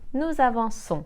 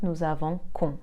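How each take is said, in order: First: The consonant before -ons sounds like s. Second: The consonant before -ons sounds like k. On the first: The speaker calls it right. "soft s sound" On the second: The speaker calls it wrong. "and not"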